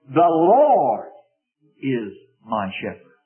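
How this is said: The stress is on Lord.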